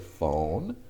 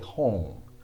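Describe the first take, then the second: First: The word begins with an f sound. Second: The word begins with an h sound. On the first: This is how English speakers say it. "the Japanese don't say phone" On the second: This is how Japanese speakers say it. "they say hon"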